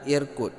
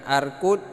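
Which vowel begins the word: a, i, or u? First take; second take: i; a. First: The word begins with an i vowel. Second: The word begins with an a vowel. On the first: "dan bukan irkud" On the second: "ini bukan arkud"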